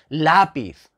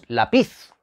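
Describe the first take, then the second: First: The stress is on the first syllable. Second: The stress is on the second syllable. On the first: The speaker calls it right. "Porque decimos lápiz" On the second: The speaker calls it wrong. "no decimos lápiz"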